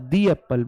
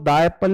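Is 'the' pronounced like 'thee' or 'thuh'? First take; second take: thee; thuh. First: 'The' is said with a long 'ee' vowel. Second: 'The' is said with a short 'uh' vowel. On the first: The speaker calls it right. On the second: The speaker calls it wrong. "दा Apple नहीं बोलूंगा"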